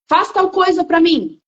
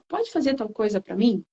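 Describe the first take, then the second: First: It is said in a commanding, imposing tone. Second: It is said in a gentle, polite tone.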